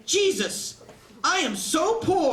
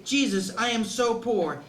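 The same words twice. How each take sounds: First: "Jesus" blurted as an oath, "I am so poor" slow and higher; "Jesus," like a curse, then "I am so poor" drawn out high; swearing stress on Jesus. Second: Said in the usual way. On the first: Shown as a demonstration. Comic kid mangling the line, blurting "Jesus" as an oath. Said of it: "He said". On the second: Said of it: "He didn't say".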